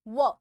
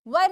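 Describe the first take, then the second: First: It has a short central vowel with no r. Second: It has a short central vowel with the r sounded. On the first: "ये आर को हम silent कर सकते हैं" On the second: "अब ये जो वर है"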